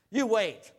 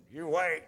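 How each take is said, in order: First: Put-on loud, emphatic old-timer warning; old person warning. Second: Said in the usual way. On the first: Shown as a demonstration. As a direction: bark it like a grumpy elder. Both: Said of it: "now I sound like an old person".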